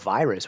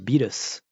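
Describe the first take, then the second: First: It is said with a standard English pronunciation. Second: It is said with a foreign, Japanese-style pronunciation. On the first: "the word virus" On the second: "That's what it sounds like"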